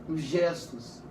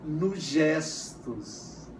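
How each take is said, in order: First: Said in the usual way. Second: Softer, lower, very slow "nos gestos"; drawn-out teacher emphasis on "nos gestos". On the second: Shown as a demonstration. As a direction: stretch "nos gestos" out slowly and gently. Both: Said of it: "o afeto também se manifesta".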